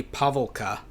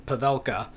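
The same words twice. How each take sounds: First: Pavelka stressed on the first syllable, PAV-el-ka; first pronunciation attempt. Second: Pavelka stressed on the middle syllable, pa-VEL-ka; second pronunciation attempt. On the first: Lecturer tries an unfamiliar surname, Pavelka with first-syllable stress. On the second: Lecturer retries an unsure surname, Pavelka with middle-syllable stress. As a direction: say Pavelka as puh-VEL-kuh. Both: Shown as a demonstration. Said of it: "not sure how you would pronounce that".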